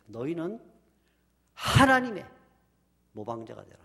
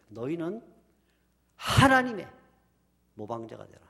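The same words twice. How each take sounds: First: The stress falls on 하나님의. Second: The stress falls on 하나님의.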